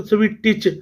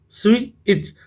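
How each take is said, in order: First: "स्विटिच" broken by an extra T syllable; wrong sounded T. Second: "स्विच" going straight into the ch; silent T. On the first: Teacher showing the mistake, "स्विटिच" mispronounced with an audible T. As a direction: say "स्विटिच" as "swi-tich", T fully sounded. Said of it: "वो word गलत हो जाएगा". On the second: Teacher modelling for pupils, "स्विच" pronounced with the T silent. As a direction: say "स्विच" with no T before the ch. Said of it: "टी यहाँ पर silent रखना है". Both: Shown as a demonstration.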